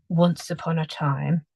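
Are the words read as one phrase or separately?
one phrase. The words flow together as one phrase. The speaker calls it right.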